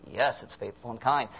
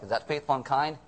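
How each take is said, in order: First: "faithful and kind" answered with a settled falling tune; firm answer. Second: "faithful and kind?" asked with a rising, doubting tune; doubting question. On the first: Pastor answering the congregation's doubt with a firm fall. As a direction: answer the doubt calmly and firmly. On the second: Pastor voicing the listeners' doubt, rising on "faithful". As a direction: voice the congregation's doubt, lifting at "faithful". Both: Shown as a demonstration.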